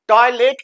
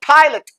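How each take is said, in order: First: The unstressed vowel is said full and clear. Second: The unstressed vowel is weakened and unclear. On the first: "टॉयलेट की जगह" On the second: "बोलेंगे टॉयलेट"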